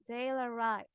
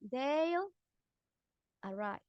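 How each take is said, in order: First: The two words run together without a break. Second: The two words are said with a separation. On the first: The speaker calls it right. "So we joined" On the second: The speaker calls it wrong. "Instead of saying"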